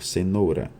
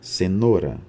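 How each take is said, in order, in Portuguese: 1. A vogal tônica é o ditongo ou completo. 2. A vogal tônica é um o simples. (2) "a transformação do ditongo ou para o"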